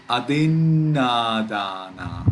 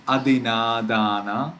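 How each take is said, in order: First: Adinadana slow, with a long held nn after adi; double consonant. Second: Adinadana run through with a short n; single consonant. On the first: Teacher showing the right reading, adinadana with the n held long. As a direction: get stuck in the first na of adinadana. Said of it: "We read adinadana". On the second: Teacher showing the wrong reading, adinadana with no held n. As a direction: say adinadana without lingering on the n. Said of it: "We do not read". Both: Shown as a demonstration.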